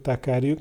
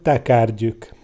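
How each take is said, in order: First: It is said with a plain 'j' sound. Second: It is said with a 'gy' sound. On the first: This is how people from Pest say it. "a pestiek mondják" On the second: This is how an old country woman would say it. "úgy mondná"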